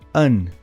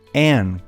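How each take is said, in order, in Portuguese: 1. A vogal é reduzida e fraca. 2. A vogal é plena e tônica. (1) "O segundo artigo em laranja tem o som de an" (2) "quando a pessoa quer dar ênfase na palavra"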